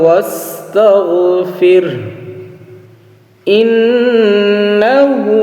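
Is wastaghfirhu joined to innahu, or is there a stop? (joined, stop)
stop. It stops after wastaghfir, with the final vowel dropped. "যখন আমরা থামবো ওয়াকফ করব"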